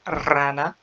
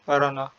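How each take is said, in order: First: The first r is a strong rolled trill. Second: The first r is a single light tap. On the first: The speaker calls it right. "هي رانا" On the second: The speaker calls it wrong. "رانا غلط"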